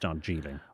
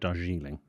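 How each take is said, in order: First: The J sound is hard. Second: The J sound is soft. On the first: "but it's Darjeeling. It's a hard J" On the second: "might have said Darjeeling"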